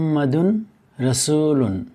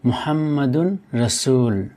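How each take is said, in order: First: The last word ends with its full '-un' ending. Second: The last word ends without the '-un' ending.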